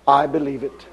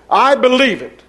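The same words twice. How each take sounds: First: Quiet conviction. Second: Firm declaration. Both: Real, not acted.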